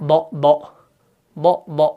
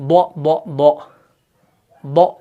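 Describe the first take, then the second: Both takes have the same delivery.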